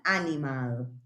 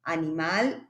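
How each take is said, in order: First: Said in the usual way. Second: "Animal" said the English way, stress on the first syllable, with a rising tune; pronunciación inglesa de "Animal"; English pronunciation. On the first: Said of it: "la pronunciación sea diferente". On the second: Shown as a demonstration. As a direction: say "Animal" as an English word, AN-imal. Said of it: "aun cuando la evolución fonética o la pronunciación sea diferente".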